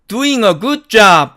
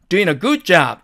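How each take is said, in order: First: Doing ends with a full ng sound. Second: Doing ends with a plain n sound. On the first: "원래는 이게 맞는데" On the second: "g가 생략되어서 in으로 발음"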